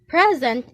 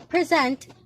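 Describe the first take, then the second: First: The stress is on the first syllable. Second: The stress is on the second syllable. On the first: It names a gift. "Present is something that was presented" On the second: It names the act of giving formally. "present means to give or bestow formally"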